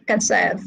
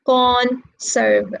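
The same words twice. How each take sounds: First: "conserve" with stress on SERVE; light CON, stressed SERVE in "conserve"; stress on second syllable. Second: "conserve" with stress on CON; wrong first-syllable stress. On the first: Teacher corrects the class, stress on the second syllable of "conserve". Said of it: "No, we say conserve". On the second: Teacher shows the class what not to say, misplaced stress on CON. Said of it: "We don't say conserve". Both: Shown as a demonstration.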